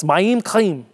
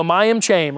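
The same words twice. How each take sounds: First: Slow "Mayim Chaim", second syllable stressed, throaty ch; careful Hebrew pronunciation. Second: Imitated Georgia pronunciation of "Mayim Cham"; Georgia accent. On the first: Shown as a demonstration. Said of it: "like you're clearing your throat sound". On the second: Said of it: "the Georgia pronunciation of this".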